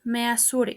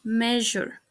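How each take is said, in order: First: "measure" as meh-ah-SOO-reh; "measure" with plain s and sounded e; mispronounced. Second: "measure" as MEH-zhər; "measure" in two syllables; correct pronunciation. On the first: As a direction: say "measure" letter by letter. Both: Shown as a demonstration. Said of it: "The correct pronunciation is".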